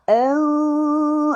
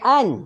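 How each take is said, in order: First: The n sound becomes a nasal hum. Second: The n sound is fully and clearly pronounced. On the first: The speaker calls it right. "ah tu tu sengau" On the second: The speaker calls it wrong. "Sepatut bunyi an. So kita tak nak bunyi an"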